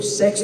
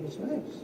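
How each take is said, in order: First: High, much louder, finally spitting it out; blurted out loud. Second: High and softer, almost too shy to say it; timid hushed word. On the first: Son forced to repeat it to his father, blurted loud. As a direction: give up and just say it loud. Father asked him to speak up. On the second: Son shyly telling his father the topic, hushed. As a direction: mumble the forbidden word so dad barely hears. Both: Retold or imitated.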